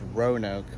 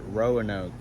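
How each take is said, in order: First: It is pronounced the way locals say it. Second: It is pronounced the way visitors say it. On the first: "It's called pronounced Roanoke" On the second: "all out of town performers pronounce it Roanoke"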